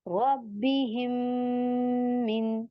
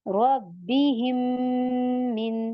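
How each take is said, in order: Both takes have the same delivery.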